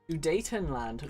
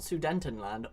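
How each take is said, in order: First: There is no n sound before the t. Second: An extra n sound comes before the t. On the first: The speaker calls it right. "Sudetenland, not Sudentenland" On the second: The speaker calls it wrong. "not Sudentenland"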